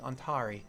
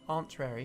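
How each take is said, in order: First: The name has no extra r sound. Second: The name has an extra r sound. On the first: The speaker calls it right. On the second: The speaker calls it wrong.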